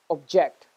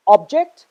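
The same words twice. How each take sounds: First: ObJECT, stressed on the second syllable. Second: OBject, stressed on the first syllable. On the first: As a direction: say "object" as the verb, weight on "ject". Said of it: "stress on the second syllable". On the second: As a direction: say "object" as the noun, punching "ob". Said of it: "stress on the first syllable". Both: Shown as a demonstration.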